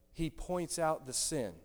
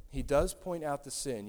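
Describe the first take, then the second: First: Said in the usual way. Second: Does pressed a little louder; stress on does. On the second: Shown as a demonstration. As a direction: lean on the word does.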